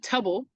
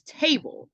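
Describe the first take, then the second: First: The first vowel is short and cut off. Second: The first vowel is long and stretched out. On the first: The speaker calls it wrong. "It's not tubble" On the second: The speaker calls it right. "That sound stretches"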